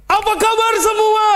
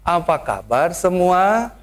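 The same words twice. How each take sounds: First: High, loud Betawi-style shout; rough loud greeting. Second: Gentle Sundanese greeting. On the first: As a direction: blast the greeting at the crowd. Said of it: "pendetanya kasar". (sapaan keras ala Betawi) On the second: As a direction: ease it out like a polite Sundanese host. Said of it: "Saya berubah". (sapaan halus ala Sunda, pelan) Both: Shown as a demonstration.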